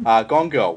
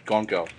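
First: Put-on Gone Girl hit loud and pointed; emphatic title plug. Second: Said in the usual way. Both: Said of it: "Do you wanna be even more glaringly obvious?".

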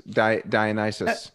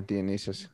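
First: Dionysus said "die-uh-NYE-sus"; first-attempt pronunciation. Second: Dionysus said "dee-uh-NEE-sus"; corrected pronunciation. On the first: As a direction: say Dionysus with long i sounds, like "die" and "nice". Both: Real, not acted.

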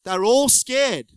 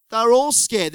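First: Slow emphasis. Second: Louder repeat. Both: Shown as a demonstration. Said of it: "repeated for emphasis".

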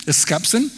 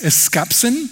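First: Eskapsin repeated quickly and softer, a light rise at the end; Greek word repeated. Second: Eskapsin said slowly and carefully, syllable by syllable, rising at the end; Greek word spoken slowly. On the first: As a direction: toss off eskapsin once more, softer. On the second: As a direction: sound out eskapsin slowly like a teacher. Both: Shown as a demonstration. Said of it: "that's called".

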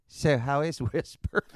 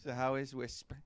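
First: Slow, kindly Mister Rogers voice; gentle Mister Rogers. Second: A light take on Mister Rogers' calm voice; gentle Mister Rogers. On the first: Mister Rogers gently asking about Robert's ninja friend, slow and kind. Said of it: "Mister Rogers looks at me and goes". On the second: Teller replaying Mister Rogers' line, soft and kind. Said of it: "Just the way he said it". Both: Retold or imitated.

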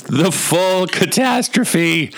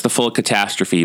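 First: High, slow, drawn-out theatrical delivery; dramatic proclamation. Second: Said in the usual way. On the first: Acted. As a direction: intone it like a grand tragic title. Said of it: "all I could think of was the words".

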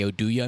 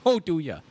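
First: Said in the usual way. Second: Put-on Minnesotan accent. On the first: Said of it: "Minnesotan accent". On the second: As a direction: say "Oduya" the Minnesotan way, round open vowels. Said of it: "kinda got, like, a Minnesotan accent".

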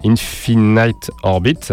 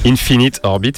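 First: "Infinite" said "infinaït", with a long English I sound in the last syllable; "Infinite Orbit" with the French speaker's own mistaken "infinaït"; rough English, "Infinite" ending like "night"; bad English accent. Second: "Infinite" said "infinit", with a short I in the last syllable; "Infinite Orbit" repeated with the corrected "infinit"; corrected pronunciation. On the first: Real, not acted. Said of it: "corriger mon accent anglais pourri". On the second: Shown as a demonstration. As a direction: fix it: "Infinite" ending in a short "nit". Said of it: "merci de me corriger".

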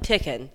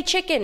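First: "Chicken" with a plain t-like stop for the ch; child's mispronunciation. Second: Said in the usual way. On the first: Retold or imitated. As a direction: imitate a child saying "Chicken" without the ch hiss. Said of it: "and they're like". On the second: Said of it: "say chicken".

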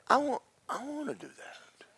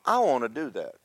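First: Hushed, eager whisper; awed whisper. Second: Said in the usual way. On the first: Retold or imitated. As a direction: whisper it like a secret longing. Peter voices his wish in awe.

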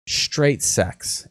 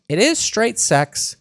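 First: Said in the usual way. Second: "is" leaned on, whole line high and slow; pitched up, slowly stressing "is". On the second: Shown as a demonstration. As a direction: insist on "is" in "It is straight sex".

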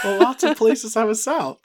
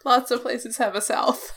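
First: Higher Southern twang, hammed up; Southern accent. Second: Said through laughter; giggling as she speaks; laughing, pitched high. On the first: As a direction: play the Southern merc repeating her line. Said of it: "Southern Cragsmith just always sounds like this". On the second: Real, not acted.

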